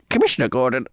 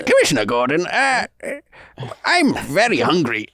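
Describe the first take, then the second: First: Cautious, lightly voiced character attempt; Gandhi Batman. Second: Put-on Indian accent; halting hero voice with a mock Indian accent; Gandhi Batman. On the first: Co-host tries the requested impression on the show, tentative character voice. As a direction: tentatively try a mash-up hero voice. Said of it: "This is Gandhi Batman". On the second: Co-host retries the impression for the guest, Indian accent. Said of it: "he's definitely got an Indian accent".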